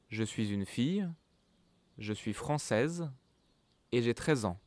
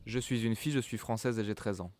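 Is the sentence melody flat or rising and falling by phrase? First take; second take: rising and falling; flat. First: Short breaks; the voice rises per group, falls at end. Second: Even and flat, without rises or breaks between groups. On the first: The speaker calls it right. "at the end of each group, the voice goes up a bit, and at the end of the last one, the voice goes down, like this" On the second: The speaker calls it wrong. "I don't speak like this. It's horrible. I sound like a robot"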